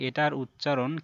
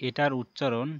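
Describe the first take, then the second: Both takes have the same delivery.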